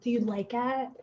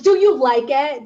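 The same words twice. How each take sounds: First: It is said in a sultry, sexy voice. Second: It is said in a plain, ordinary voice.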